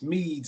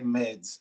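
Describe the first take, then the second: First: The vowel is a long 'ee' sound. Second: The vowel is a short 'e' sound. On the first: The speaker calls it right. "like the like the honey wine" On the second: The speaker calls it wrong. "You don't know how many people say meds"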